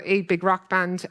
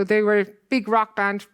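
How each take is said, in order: First: Slow "a big rock band", with "a" said as a full "ay"; stress on "a". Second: Said in the usual way. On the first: Real, not acted. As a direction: correct yourself by weighting "a", pronounced "ay", before "big rock band". Corrects self, stressing the article.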